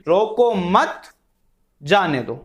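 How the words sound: There is a pause after 'mat'.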